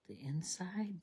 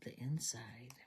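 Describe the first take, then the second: First: Said in the usual way. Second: Soft unvoiced whisper; a little searching whisper; whisper to self. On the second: Real, not acted. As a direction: breathe it while hunting for it.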